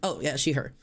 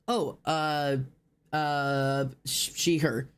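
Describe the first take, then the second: First: It is said readily, smoothly and without stalling. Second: It is said hesitantly, with stalling and stumbling.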